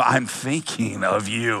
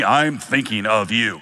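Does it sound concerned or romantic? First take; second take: romantic; concerned. First: It sounds romantic and suggestive. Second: It sounds worried and caring.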